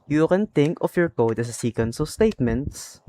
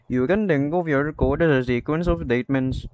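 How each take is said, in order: First: The T sounds are pronounced as normal T sounds. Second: The T sounds are pronounced as D sounds instead. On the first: "So instead of saying like this" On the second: "I'm gonna replace the T's with a D to make it sound like"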